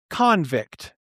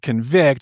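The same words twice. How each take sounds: First: The stress is on the first syllable. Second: The stress is on the second syllable. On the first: A person found guilty and imprisoned. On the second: To prove someone guilty.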